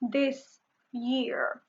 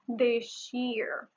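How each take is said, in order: First: The s in this is a plain s. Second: The s in this sounds like sh.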